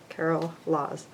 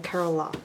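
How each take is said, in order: First: The surname ends with an s sound. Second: The surname ends without an s sound. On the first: The speaker calls it right. "I always think it's Laws, which it is" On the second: The speaker calls it wrong. "I always say it wrong"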